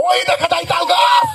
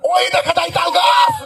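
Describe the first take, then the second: First: It is declaimed like a fiery political orator. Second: The same.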